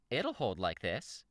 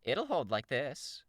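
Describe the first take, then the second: First: Slow character voice, moderately raised pitch; character voice, found. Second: High, slow, drawn-out character voice; character voice, first try. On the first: Reader has found Shamrock's voice, slow character delivery. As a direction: draw it out, a little less high-pitched. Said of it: "I think I got it". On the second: Reader trying out Shamrock's voice, high and slow. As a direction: pitch it well up and stretch it out. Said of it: "what was her voice?". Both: Acted.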